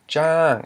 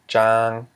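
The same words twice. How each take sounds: First: The word is said with a falling tone. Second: The word is said with a low tone. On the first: "it is in fact not low but a falling tone" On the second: "not low"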